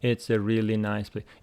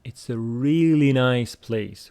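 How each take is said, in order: First: It is said flatly, without any emotion. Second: It is said with lively, warm emotion. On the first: The speaker calls it wrong. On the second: The speaker calls it right.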